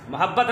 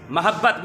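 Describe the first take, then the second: First: मोहब्बत starting "mu-"; short u after the m in मोहब्बत; mispronunciation demo. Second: मोहब्बत starting "ma-"; short a after the m in मोहब्बत; correct pronunciation. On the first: Teacher citing the common reading, mispronunciation demo. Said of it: "मोहब्बत नहीं". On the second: Teacher correcting pupils, correct pronunciation. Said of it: "मीम पर ज़बर के साथ". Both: Shown as a demonstration.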